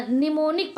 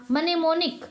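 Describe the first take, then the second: First: निमोनिक starting on N, "ni-monik"; silent M. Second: मनेमोनिक with M sounded, "ma-ne-monik"; wrong pronunciation. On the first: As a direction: leave the first M out of निमोनिक. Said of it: "निमोनिक पढ़ेंगे". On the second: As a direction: start मनेमोनिक on a full M syllable. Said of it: "मनेमोनिक नहीं पढ़ेंगे". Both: Shown as a demonstration.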